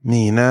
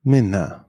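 First: "Mina" with a long ee sound; long vowel. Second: "Minna" with a short i; short vowel. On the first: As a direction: stretch the i in "Mina". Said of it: "is usually pronounced long". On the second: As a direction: keep the i in "Minna" brief. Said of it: "short if there are two consonants". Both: Shown as a demonstration.

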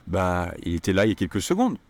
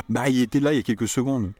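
First: Vague, noncommittal shrug; hesitant offhand French; unsure bah. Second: Fast, firm and emphatic; confident snappy French; certain bah. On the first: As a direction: say it like you're not really sure. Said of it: "The feeling of that is, "Yeah, well, according to me". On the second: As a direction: insist he definitely was here. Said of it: "he definitely was here". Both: Shown as a demonstration.

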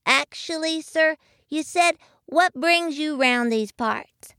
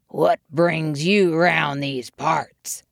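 First: Put-on high, small child's voice; little voice. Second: Self-important bear. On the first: Young muskrat correcting the bear, little high voice. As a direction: pipe up as a polite little one. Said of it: "a little voice belonging to Jimmy Bobby". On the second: Bear confronting a newcomer, slow self-important voice. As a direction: take your time like you own the place. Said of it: "full of self-importance". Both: A narrator's reading.

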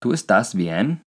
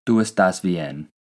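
First: ¿Tú estás bien? asked slowly with the pitch rising at the end; slow rising question; question tune. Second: Unhurried statement tune. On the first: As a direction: ask it slowly, lifting on bien. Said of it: "The question is". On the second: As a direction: say it as a plain statement, slowly. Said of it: "The statement". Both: Shown as a demonstration.

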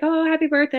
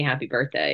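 First: High, bright mock birthday greeting; playful sing-song birthday wish; cheery brother. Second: Said in the usual way. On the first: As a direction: chirp it like a teasing brother. Brother voiced in retold exchange.

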